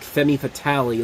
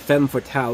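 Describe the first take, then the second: First: The first word has two syllables, "femi". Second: The first word has one syllable, "fem". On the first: The speaker calls it wrong. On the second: The speaker calls it right.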